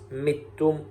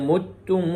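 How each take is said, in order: First: The word sounds like mittum. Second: The word sounds like mutum.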